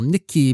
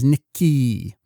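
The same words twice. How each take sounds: First: The final vowel is short. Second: The final vowel is lengthened. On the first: This is the plain Japanese word for cinnamon. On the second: This is the character's name.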